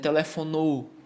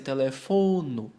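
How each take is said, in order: First: The stress is not on the second-to-last syllable. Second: The stress is on the second-to-last syllable. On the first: The speaker calls it wrong. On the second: The speaker calls it right. "Vai ser telefono"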